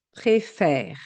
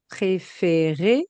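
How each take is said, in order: First: "préfère" with open eh in the last syllable; open È sound. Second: "Préférer" with closed é in every syllable; closed É sound. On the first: Teacher shows the vowel change, open eh in "préfère". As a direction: say "préfère" as pré-fair, falling, ending silent. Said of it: "cela devient". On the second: Teacher models the infinitive, closed é in "Préférer". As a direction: say "Préférer" as pré-fé-ré, ending voiced. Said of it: "du son et". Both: Shown as a demonstration.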